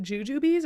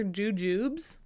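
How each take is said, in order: First: "Jujubes" said as joo-joo-bees; two-syllable-ending pronunciation. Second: "Jujubes" said as joo-joobs; no ee on the end of "Jujubes", just joo-joobs; clipped-ending pronunciation. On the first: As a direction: end "Jujubes" on a long ee, like bees. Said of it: "I always thought there were two E's in it". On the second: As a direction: say "Jujubes" in two syllables, rhyming with tubes. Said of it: "but it's just Jujubes". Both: Shown as a demonstration.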